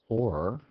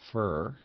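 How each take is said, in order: First: The vowel is full, sounding like or. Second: The vowel is reduced, sounding like fur. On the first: "if it's pronounced or" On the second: "if it were predominantly pronounced fur"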